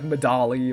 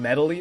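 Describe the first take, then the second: First: It sounds different from the word medley. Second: It sounds just like the word medley. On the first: "it could be like Medali or something like that" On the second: "it sounds like the word medley"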